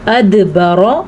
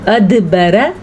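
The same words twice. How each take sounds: First: The r is pronounced full and heavy. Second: The r is pronounced thin and light. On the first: The speaker calls it right. "पूर्व ठीक" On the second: The speaker calls it wrong. "अगर हम इसको बारीक पढ़ेंगे तो कैसे पढ़ेंगे? अदबरा गलत"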